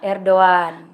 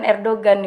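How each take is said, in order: First: The g in the middle is silent. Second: The g in the middle is pronounced. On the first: The speaker calls it right. "G yang ada tanda di atasnya itu nggak dibaca" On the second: The speaker calls it wrong. "bukan Erdogan"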